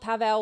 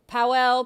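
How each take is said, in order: First: The name is said with a v sound. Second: The name is said with a w sound. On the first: The speaker calls it right. "I've heard them saying Pavel" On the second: The speaker calls it wrong. "I've always said Powell, ... so I apparently have been saying it wrong"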